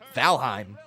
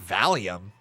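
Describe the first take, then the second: First: The word ends with a 'heim' sound. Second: The word ends with an 'ee-um' sound. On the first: The speaker calls it right. "No, it's Valheim" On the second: The speaker calls it wrong. "I thought it, for whatever reason, was pronounced as Valium"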